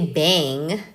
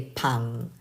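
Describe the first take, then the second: First: The first consonant sounds like an English b. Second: The first consonant sounds like a Korean ㅂ. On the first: The speaker calls it wrong. "Don't say bang" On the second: The speaker calls it right. "Say pang"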